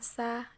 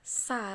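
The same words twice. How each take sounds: First: The sound is thin and light. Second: The sound is thick and heavy. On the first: The speaker calls it right. "Jadi ringan sekali didengarkan" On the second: The speaker calls it wrong. "terlalu tebal. Jadi kadang-kadang pelafalannya jadi seperti ini"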